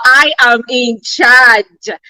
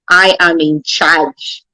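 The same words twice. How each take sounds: First: It is said loudly and with strong force. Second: It is said in a plain reading voice.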